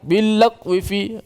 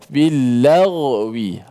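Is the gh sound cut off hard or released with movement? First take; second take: cut off; released. First: The gh sound is stopped dead, like a q. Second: The gh sound is released with slight movement. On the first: The speaker calls it wrong. "jangan matikan laq billaq wifi billaq tak tahu huruf apa" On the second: The speaker calls it right. "suara tu dilepaskan bergerak sikit"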